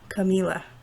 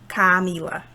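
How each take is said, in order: First: The first vowel is a weak schwa. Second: The first vowel is a full vowel. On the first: The speaker calls it right. "So that's another schwa sound" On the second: The speaker calls it wrong. "We don't say really Camila"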